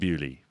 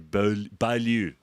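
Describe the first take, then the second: First: The name begins with a 'bew' sound. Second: The name begins with a 'bo' sound. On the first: This is the actual name. The speaker calls it right. "But it's actually Bewley" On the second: This is how people usually say it. The speaker calls it wrong. "But people say Beaulieu"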